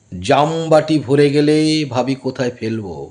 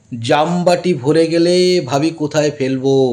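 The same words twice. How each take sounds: The two takes are said the same way.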